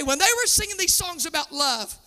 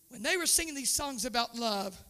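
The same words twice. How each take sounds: First: Said in the usual way. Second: Softer, hushed repeat; tender hushed retelling to the pews; quiet. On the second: Shown as a demonstration. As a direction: drop the voice to almost nothing. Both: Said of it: "repeats the line softly".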